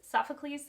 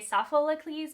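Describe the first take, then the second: First: The name is said without an extra syllable. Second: The name is said with an extra syllable. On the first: The speaker calls it right. "so it's Soph Soph Sophocles Sophocles" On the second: The speaker calls it wrong. "I have an extra syllable in there when I say it like that"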